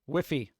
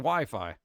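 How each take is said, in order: First: The first syllable sounds like 'whiff', rhyming with 'if'. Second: The first syllable sounds like 'why', rhyming with 'fly'. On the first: It is a cutesy mispronunciation. The speaker calls it wrong. "I could say saying whiffy like if you're being like cutesy" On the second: It is the usual pronunciation. The speaker calls it right. "But it's it's literally Wi-Fi"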